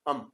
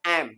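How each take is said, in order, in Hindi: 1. इस शब्द में स्वर छोटा और हल्का है। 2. इस शब्द में स्वर पूरा और साफ़ है। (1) "वीक फॉर्म में वही शो आ जाएगा अम अम" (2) "स्ट्रांग में तो कहा जाएगा एम"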